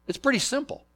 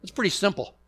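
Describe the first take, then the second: First: "pretty" lifted much higher the second time; higher repeat. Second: Said in the usual way. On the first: Shown as a demonstration. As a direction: say "It's pretty simple" again, pitched up high.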